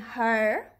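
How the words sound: It is said in an American accent. "let's see these words first with American English"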